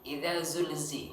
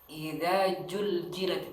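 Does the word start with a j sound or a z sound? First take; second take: z sound; j sound. First: The word starts with a z sound. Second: The word starts with a j sound. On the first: The speaker calls it right. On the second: The speaker calls it wrong. "Tidak dibaca"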